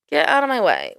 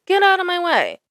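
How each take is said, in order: First: Said in the usual way. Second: High mocking get out of my way; mock bossy. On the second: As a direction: push the line up high like a snotty driver. Mocking truck drivers.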